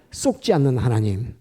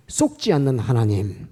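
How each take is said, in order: Both takes have the same delivery.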